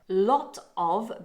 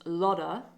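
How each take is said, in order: First: Both words are said fully and separately. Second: The words run together into one reduced word.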